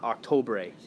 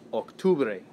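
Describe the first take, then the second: First: The second vowel is an o sound. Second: The second vowel is a u sound. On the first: The speaker calls it wrong. "but it's not octobre" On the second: The speaker calls it right. "It's octubre"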